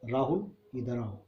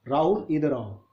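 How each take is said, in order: First: It is said softly and low. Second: It is said at medium loudness.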